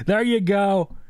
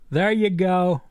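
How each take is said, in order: Both takes have the same delivery.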